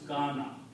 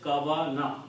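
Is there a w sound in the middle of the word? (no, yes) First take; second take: no; yes. First: No w sound; a long a vowel instead. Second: A w sound is heard between two short a vowels. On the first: "the sound of this becomes the sound of alif" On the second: "It will be pronounced as kavana"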